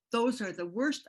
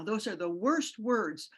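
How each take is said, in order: First: Said in the usual way. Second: Each word weighed down slowly; slow, pained emphasis. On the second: Real, not acted. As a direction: drag out worst, heavy with grief. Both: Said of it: "I could cry right now".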